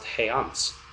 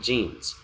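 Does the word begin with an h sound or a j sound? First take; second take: h sound; j sound. First: The word begins with a breathy h sound. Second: The word begins with a j sound. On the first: It is read by the letters' sounds in one language. "if you actually tried to read it with uh, Spanish phonetics, it would be pronounced heants" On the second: It is recognized and said as the borrowed word. "not jeans"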